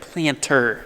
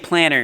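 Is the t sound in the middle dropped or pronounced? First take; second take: pronounced; dropped. First: The middle t sound is clearly pronounced. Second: The middle t sound is dropped. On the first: The speaker calls it right. "instead of planter. I need to enunciate" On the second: The speaker calls it wrong. "We have a bad tendency of saying planter"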